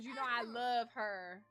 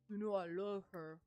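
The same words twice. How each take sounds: First: It is said in her normal voice. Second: It is said in a put-on deep man voice.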